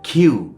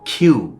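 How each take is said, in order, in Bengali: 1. k উচ্চারণ করা হয় বাতাসের ফুৎকার দিয়ে। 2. k উচ্চারণ করা হয় বাতাসের ফুৎকার দিয়ে।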